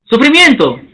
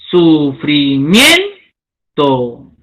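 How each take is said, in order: First: Said in the usual way. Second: Sufrimiento drawn out very slowly and lower, leaning on MIEN; slow stress demo. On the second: Shown as a demonstration. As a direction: stretch it to find the stressed syllable.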